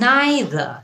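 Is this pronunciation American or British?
British. It is said the British way, like 'nye-ther'. "নাইদার এটা হচ্ছে British উচ্চারণ"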